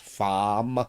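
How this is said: The r is dropped, leaving a long ah. "it's farm ... it ends up being a ah"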